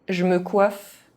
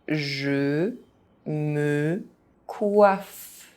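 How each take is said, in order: First: It is said fast, with some sounds dropped. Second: It is said very slowly, syllable by syllable. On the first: This is how native speakers say it. "fast, as a native speaker would do" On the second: Each syllable can be followed. "very slowly"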